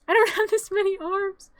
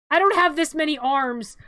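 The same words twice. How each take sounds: First: High laughing exclamation. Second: Loud, flustered complaint; complain, overwhelmed; flustered exclamation. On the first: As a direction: laugh it out, overwhelmed. Repeated while laughing. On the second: Juggling game controls. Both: Real, not acted.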